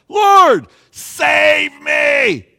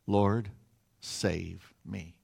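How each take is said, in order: First: High, loud, drawn-out scream for help; full-throated plea of a drowning man; desperate cry. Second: Said in the usual way. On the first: Shown as a demonstration. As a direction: cry out in fear and dependence. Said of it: "He cries out. It's a cry of desperation". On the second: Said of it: "He doesn't just pray it".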